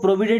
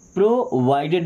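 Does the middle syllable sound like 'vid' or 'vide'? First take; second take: vid; vide. First: The middle syllable has a short 'i' vowel. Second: The middle syllable has an 'eye' vowel. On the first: The speaker calls it wrong. "इसको प्रोविडेड नहीं" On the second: The speaker calls it right.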